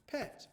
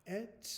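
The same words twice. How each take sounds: First: Said in the usual way. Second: "Pet" split into p, then et; sounded out. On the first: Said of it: "I'd write the word pet". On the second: Shown as a demonstration. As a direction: sound out "Pet" in two parts, with a gap. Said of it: "we can make this sound".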